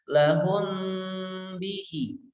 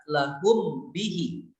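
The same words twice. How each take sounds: First: The m is hidden with a nasal hum. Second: The m is pronounced fully and clearly. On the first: The speaker calls it right. "disertai dengan gunnah dan tidak bertasydid" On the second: The speaker calls it wrong. "Kalau dibaca izhar"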